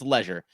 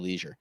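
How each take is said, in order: First: It is pronounced the British way. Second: It is pronounced the American way. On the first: "Across the pond, it's leisure" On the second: "here in the States, we say"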